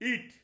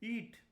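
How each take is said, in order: First: It is said in an angry, commanding voice. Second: It is said in a gentle, pleasing voice. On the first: It is a command. "I am saying in an angry voice to my child" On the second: It is a request made with love. "I am saying in a uh, very pleasing manner"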